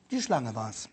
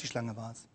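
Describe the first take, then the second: First: Eva's excuse. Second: Much lower, much softer, a throwaway mumble; Eva's excuse, fading. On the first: Preacher voices Eva's excuse. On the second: Prediger wiederholt Evas Ausrede leise, beiläufig. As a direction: let the excuse die off meekly. Repeated quote of Eva, dropping away. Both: Acted.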